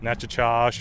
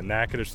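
First: The name is said in another outsider variant. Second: The name is said the local way. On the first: This is how outsiders often say it. The speaker calls it wrong. "or Natchitoches" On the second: This is the proper pronunciation. The speaker calls it right. "but yeah, Natchitoches, Louisiana"

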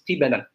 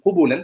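First: The first syllable has an i vowel. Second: The first two syllables have u vowels. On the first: "with a kasra underneath both the qaf and the ba" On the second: "ضَمَّ and the qaf and the ضَمَّ and the ba"

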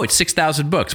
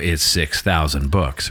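First: It is said lightly, as if unimpressed. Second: It is said weightily, as if impressed. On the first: The number seems small. "doesn't sound like a lot" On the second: The number seems large. "sounds like a lot"

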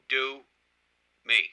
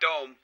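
First: It is said as two syllables. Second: It is said as one syllable. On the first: The speaker calls it right. "Two separate words" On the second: The speaker calls it wrong. "Not dome"

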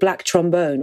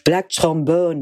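First: It is said in the speaker's plain accent. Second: It is said in an imitated foreign accent. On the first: This is the ordinary pronunciation of the title. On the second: This is how the songwriter himself says the title.

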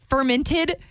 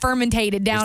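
First: The word is said with three syllables. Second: The word is said with an extra fourth syllable. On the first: The speaker calls it right. "somebody down there is not going" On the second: The speaker calls it wrong. "you ever had that kombucha and it's fermentated"

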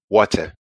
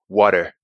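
First: It has Mama's London-area accent, with a hard T. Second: It has Dada's American accent, with a soft T.

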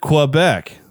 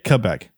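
First: The word begins with a 'kw' sound. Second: The word begins with a plain 'k' sound. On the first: This is the usual American way. "You pronounced it like Americans do" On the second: This is the way that was taught as correct. "like with a K"

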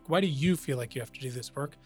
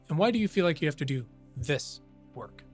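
First: The stress is on the word you. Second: The stress is on the word this.

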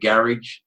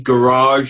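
First: It is pronounced in a British accent. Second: It is pronounced in an American accent. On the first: "instead of" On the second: "I even pronounce several words incorrectly for your benefit"

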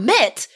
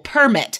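First: The stress is on the second syllable. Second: The stress is on the first syllable. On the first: It is a verb meaning to allow. "But permit as a verb" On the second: It is a noun meaning a license. "you only know this as a noun"

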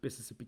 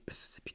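First: It is said in a normal voice. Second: It is said in a whisper.

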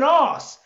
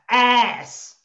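First: The word is said in a British accent. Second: The word is said in an American accent. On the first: "Not even ass" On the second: "I put it in an American accent to really get over"

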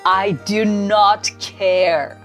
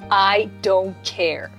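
First: The negative is said as two full words. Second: The negative is contracted into one syllable. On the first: An even stronger way to say you don't care. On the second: A fairly strong way to say you don't care.

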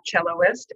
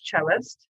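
First: An extra 'oh' vowel comes before -ist. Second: No extra vowel comes before -ist. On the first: The speaker calls it wrong. "it's not celloist" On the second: The speaker calls it right. "it's cellist"

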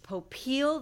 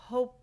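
First: The stress falls on the second syllable. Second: The stress falls on the first syllable. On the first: This is how the speaker wants his own name said. "that it's stressed on the second syllable" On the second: This is how one branch of the family says the name. "There's a branch that pronounces their name Popiel with the emphasis on the first syllable"

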